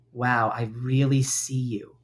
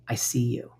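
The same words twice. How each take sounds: First: Slow gentle acknowledgement. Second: Whispered tender reassurance. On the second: Speaking kindly to her own hurt part, whispered. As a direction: whisper it like comforting a hurt child. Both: Shown as a demonstration. Kind self-talk demo.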